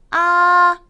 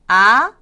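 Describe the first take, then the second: First: The pitch stays high and level. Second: The pitch rises from middle to high. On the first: "일성" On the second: "이성이요"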